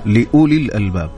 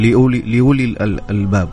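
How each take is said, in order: First: The glottal stop is fully pronounced. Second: The glottal stop is softened and eased. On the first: The speaker calls it right. "صحيح أن الواحد يحقق الهمز" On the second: The speaker calls it wrong. "كانك جبتيها بالتسهيل"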